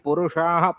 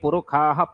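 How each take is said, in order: First: The middle consonant is a retroflex 'sh' sound. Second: The middle consonant is a 'kh' sound.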